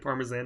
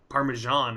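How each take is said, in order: First: It is said in a non-American way. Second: It is said in the American way.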